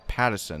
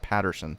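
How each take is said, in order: First: The name is said without an R sound. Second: The name is said with an R sound. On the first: The speaker calls it right. "I think Pattison" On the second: The speaker calls it wrong. "not Patterson"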